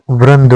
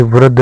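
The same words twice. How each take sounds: First: वृंद with n before d; nasal before the d of वृंद; correct form. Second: वृद्ध with no nasal; wrong form. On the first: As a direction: say vrand for वृंद. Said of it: "होता है". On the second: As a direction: say vrad for वृद्ध. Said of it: "नहीं होता". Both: Shown as a demonstration.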